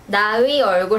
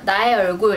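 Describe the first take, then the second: First: The vowel after 나 is pronounced fully and clearly. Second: The vowel after 나 is weakened and barely heard.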